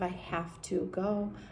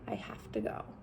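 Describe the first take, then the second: First: The vowels in 'have to' are fully pronounced. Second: The vowels in 'have to' are reduced to schwa. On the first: The speaker calls it wrong. "Instead of" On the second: The speaker calls it right. "they sound like the schwa"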